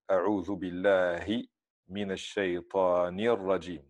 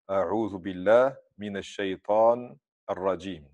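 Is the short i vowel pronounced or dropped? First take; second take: pronounced; dropped. First: The short i vowel is clearly pronounced. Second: The short i vowel is left out. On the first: The speaker calls it right. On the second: The speaker calls it wrong.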